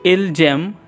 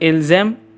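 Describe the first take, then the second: First: The consonant is a hard J sound. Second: The consonant is a soft Z sound. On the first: The speaker calls it wrong. "Here it is written as Ilgem" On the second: The speaker calls it right. "kindly make it softer so that it sound as Ilzem"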